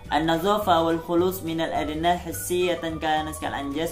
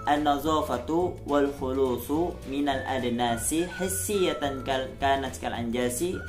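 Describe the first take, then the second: First: The final vowel endings of words are dropped. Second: The final vowel endings of words are pronounced. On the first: "Contohnya seperti ini kalau tidak dibaca" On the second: "Ini kalau harokatnya kita baca"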